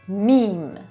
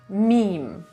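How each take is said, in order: The two takes are said the same way.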